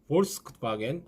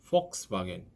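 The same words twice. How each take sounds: First: The word begins with a v sound. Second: The word begins with an f sound. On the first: The speaker calls it wrong. "하시면 안 됩니다" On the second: The speaker calls it right. "F 발음이 난다고 생각하시면 됩니다"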